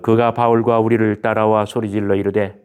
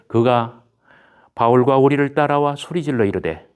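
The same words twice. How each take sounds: First: The voice stays flat and low throughout. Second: The voice is lifted slightly higher throughout. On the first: The speaker calls it wrong. "이렇게 하는 것보다는" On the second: The speaker calls it right. "살짝 좀 띄워서 이렇게 이야기하면 듣는 사람들에게 좀 더 나을 것 같아요"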